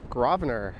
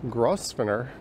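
First: The S in the name is silent. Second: The S in the name is clearly pronounced. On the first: The speaker calls it right. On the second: The speaker calls it wrong.

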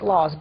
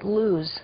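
First: It is said the anglicized, English-speaker way. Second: It is said the local Arabic way. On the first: "We actually pronounce it laws" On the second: "they actually pronounce it luz"

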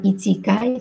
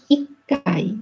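First: It has a full chi syllable before kai. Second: It has a held doubled k before kai. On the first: The speaker calls it wrong. "bukan ichikai" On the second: The speaker calls it right. "tapi ikkai"

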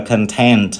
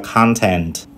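First: The stress is on the second syllable. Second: The stress is on the first syllable. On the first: It is the adjective. "tính từ chúng ta đọc là content" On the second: It is the noun. "danh từ chúng ta lại đọc là content"

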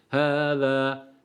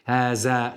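First: The middle consonant is a lisped th sound. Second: The middle consonant is a plain z sound. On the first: The speaker calls it right. "Z harfi burada da peltektir" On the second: The speaker calls it wrong. "Haza şeklinde değil"

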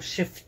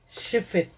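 First: The middle vowel is nearly dropped. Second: The middle vowel is clearly pronounced.

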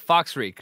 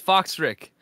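First: The second syllable has a long 'eek' vowel. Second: The second syllable has a short 'ick' vowel. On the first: The speaker calls it wrong. "or did I say Foxreek or something?" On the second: The speaker calls it right. "my name is pronounced Foxrick ... Thank you, it's Foxrick"

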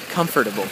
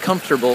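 First: Every syllable of the word is pronounced. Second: The word is shortened, with syllables dropped. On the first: The speaker calls it right. "It's important to pronounce the whole word" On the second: The speaker calls it wrong. "It's the wrong word you got going on there"

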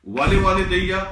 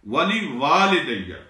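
First: The second 'wa' sound is short. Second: The second 'wa' sound is lengthened. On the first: The speaker calls it wrong. "वाले वाले दैया गलत है" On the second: The speaker calls it right. "Second वाव उसको थोड़ा लंबा करेंगे आप और फिर इसका माना सही बनेगा"

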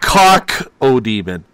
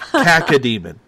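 First: The first syllable sounds like 'cock'. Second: The first syllable sounds like 'cack'. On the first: The speaker calls it wrong. "Not cock-o-demon" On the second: The speaker calls it right.

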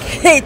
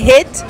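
First: The H at the start is strongly pronounced. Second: The H at the start is dropped. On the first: "I put like a lot of stress on it. I'll be like, hit" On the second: "I say hit"

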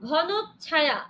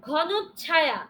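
No difference in how they are said.

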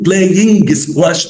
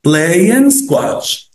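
First: A hard g is pronounced after the ng. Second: No hard g is pronounced after the ng. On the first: The speaker calls it wrong. "أوعى تقول playing squash دي" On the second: The speaker calls it right. "لما تلاقي جي بعد الآن ما تنطقهاش"

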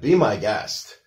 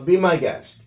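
First: It is said in a frustrated, sarcastic tone. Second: It is said in a friendly, willing tone. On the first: Fine, do it yourself then. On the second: Go ahead, it does not bother me.

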